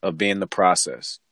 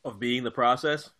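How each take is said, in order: First: BEING stressed, then falling to a close; firm confirmation. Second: PROCESS rising at the end, as a question. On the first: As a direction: answer it as a settled statement, "process" falling. Firmly confirms the questioned title. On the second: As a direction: ask it back with a lift on "process". Questioning the title just offered. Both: Real, not acted.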